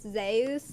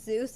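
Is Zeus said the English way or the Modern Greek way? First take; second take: Modern Greek; English. First: It is said with the Modern Greek pronunciation. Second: It is said with the usual English pronunciation.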